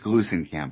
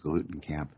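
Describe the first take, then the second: First: The middle consonant is an s sound. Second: The middle consonant is a t sound. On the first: The speaker calls it right. "It is Glusenkamp, however, just for the record" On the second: The speaker calls it wrong. "it's easier to remember it as Glutenkamp"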